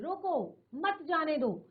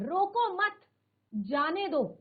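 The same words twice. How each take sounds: First: There is a pause after the first word. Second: There is a pause after the second word. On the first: Stop him, do not let him go. "रोको बोलकर हम थोड़ी एक second के लिए रुक गए" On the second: Do not stop him, let him go. "हमने दूसरे शब्द के साथ किया"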